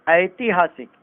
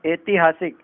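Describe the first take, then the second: First: ऐतिहासिक begun with an "ai" glide; correct "ai" vowel. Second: ऐतिहासिक begun with plain "e"; wrong "e" vowel. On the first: Teacher correcting it, ऐतिहासिक with ai. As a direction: say ऐतिहासिक as "aitihaasik". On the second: Teacher showing the error, ऐतिहासिक with e for ai. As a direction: say ऐतिहासिक as "etihaasik". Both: Shown as a demonstration. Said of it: "एक मात्रा ऊपर लगती है".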